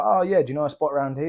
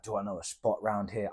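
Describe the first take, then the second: First: Said in the usual way. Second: Lower, softer echo, as if it's an absurd question; mock incredulous. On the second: Camper echoing the speaker's question, mock incredulous. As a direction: toss the question back, amused.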